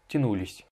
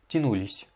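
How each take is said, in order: The two takes are said the same way.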